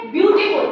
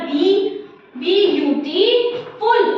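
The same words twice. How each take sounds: First: Said in the usual way. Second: ब्यूटीफुल split up as बी, बी यू टी, फुल with pauses; teacher counting out the syllables of ब्यूटीफुल. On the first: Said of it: "ब्यूटीफुल आप देखिए कितने syllable में बन रहा है". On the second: Shown as a demonstration. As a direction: chop beautiful into separate syllables. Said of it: "three syllable में बन रहा है".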